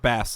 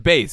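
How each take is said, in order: First: The vowel rhymes with 'mass'. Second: The vowel rhymes with 'base'. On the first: It names the fish. The speaker calls it wrong. "It's not bass like the fish" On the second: It is the name used in the title. The speaker calls it right. "it is bass"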